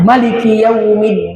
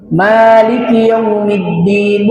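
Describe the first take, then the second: First: The vowel after the m is short. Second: The vowel after the m is held moderately long. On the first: This follows a different reading tradition. "Ada yang mengatakan Maliki Yaumiddin. Ini tidak salah" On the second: This follows the common local reading tradition. "kita cara bacanya memanjangkan huruf mim"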